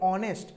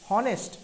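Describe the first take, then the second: First: The word begins with a vowel, no h. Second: The word begins with an audible h sound. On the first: The speaker calls it right. "আমরা বলি অনেস্ট" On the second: The speaker calls it wrong. "আমরা হনেস্ট বলি বলি না"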